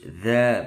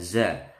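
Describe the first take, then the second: First: It begins with a voiced 'th' sound. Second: It begins with a plain 'z' sound. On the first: The speaker calls it right. "dza bukan za" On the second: The speaker calls it wrong. "bukan za"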